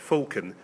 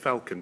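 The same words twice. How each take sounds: First: The word is said with a British pronunciation. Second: The word is said with an American pronunciation. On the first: "British is" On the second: "American is"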